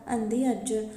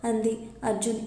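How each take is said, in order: Both takes have the same delivery.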